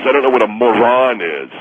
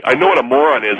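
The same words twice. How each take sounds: First: Put-on "moron" echoed in the caller's odd accent; mock the caller's accent on "moron"; mimicked pronunciation. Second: Said in the usual way. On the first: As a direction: contrast the odd-sounding "moron" with the usual one. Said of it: "what's that accent?".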